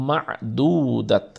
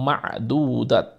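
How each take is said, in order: The two takes are said the same way.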